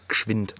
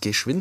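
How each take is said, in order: First: The first e is dropped, Swabian style. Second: The word is said with the full first vowel.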